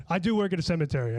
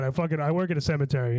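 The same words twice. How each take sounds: First: "do" leaned on to insist it is true; "I do work" with the weight on "do"; stress on do. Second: Said in the usual way. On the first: Shown as a demonstration. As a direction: hit "do" as if insisting. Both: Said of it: "I, for real".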